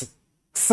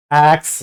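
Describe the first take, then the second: First: एक्स reduced to a voiceless, breathed ks with no vowel; just hiss out एक्स as ks; bare ks sound. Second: Said in the usual way. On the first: Shown as a demonstration. Teacher showing students the bare sound of X as a voiceless ks. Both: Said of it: "तो इसका pronunciation क्या होगा".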